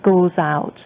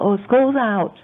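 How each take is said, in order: First: It is said in a tired, weary tone. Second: It is said in a happy, excited tone. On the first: She dreads the child being home every day. "ก็เลยพูดด้วยเสียงที่เหนื่อยหน่าย" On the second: She is glad school has ended. "ก็คือดีใจที่โรงเรียนเลิก"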